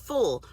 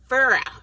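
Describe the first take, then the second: First: The word is said plainly as one syllable. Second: The word is drawn out into two syllables. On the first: "not full" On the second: "how my grandmama used to say it"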